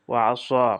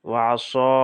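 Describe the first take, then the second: The two takes are said the same way.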